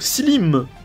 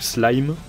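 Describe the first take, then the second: First: The vowel sounds like 'ee', as in 'slim'. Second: The vowel sounds like 'eye', as in 'slime'. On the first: This is how the speaker has always said it. "j'ai toujours dit Slim" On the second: This is probably the proper way to say it. "Je pense plutôt que ça se dit Slime"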